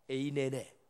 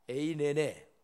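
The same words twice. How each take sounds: The two takes are said the same way.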